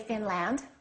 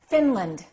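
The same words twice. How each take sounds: First: The second vowel is a full, clear vowel. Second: The second vowel is short and reduced. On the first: The speaker calls it wrong. "Don't say" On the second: The speaker calls it right. "The A is reduced"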